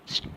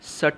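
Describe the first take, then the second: First: The s and t join with no vowel. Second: A short vowel separates the s and t. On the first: The speaker calls it right. "स्ट कहते हैं" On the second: The speaker calls it wrong. "S T को हम सट नहीं कहते"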